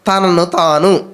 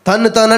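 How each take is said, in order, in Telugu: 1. ఈ పదబంధాన్ని నెమ్మదిగా పలుకుతారు, మధ్యలో చిన్న విరామంతో. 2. ఈ పదబంధాన్ని త్వరగా పలుకుతారు, పదాలు కలిసిపోతాయి. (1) "కొంచెం ఆగి ఆలోచించి పలుకమనుకోండి" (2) "అయ్యి బాబు తన్నుతారా అన్నట్టు ఉంది"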